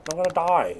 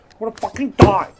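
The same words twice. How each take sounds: First: Said in the usual way. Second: Louder, higher burst of real panic. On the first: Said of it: "plain first take". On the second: Real, not acted. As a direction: blurt it out in alarm. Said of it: "repeated louder".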